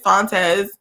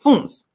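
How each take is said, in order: First: The surname is said the Spanish way. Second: The surname is said the Portuguese way. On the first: The bearer is assumed to be Mexican. The speaker calls it wrong. "and you're Mexican. He is far from Mexican, and it's not Fontes" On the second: The bearer is Portuguese. The speaker calls it right. "he's Portuguese, and it's Funs or Fonts"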